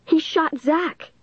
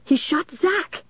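First: High, slow, drawn-out cry; high-pitched outcry, each word stretched; accusing cry. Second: High, slow cry rising on Zach; high-pitched, stretched-out accusation; insistent accusing cry. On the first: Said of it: "Dennis cried". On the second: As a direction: cry it out high, lifting the last word. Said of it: "Dennis repeated". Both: A narrator's reading.

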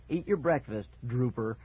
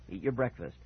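First: Mock the father's order, pitched up; snorting taunt. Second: Low-key fatherly order; firm, even instruction; warning. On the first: Brother echoing dad to tease Cooper, taunting. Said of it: "Mickey said with a snort". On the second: Father ordering son at breakfast, warning. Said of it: "my father warned". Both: A narrator's reading.

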